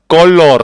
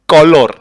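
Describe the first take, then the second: No difference in how they are said.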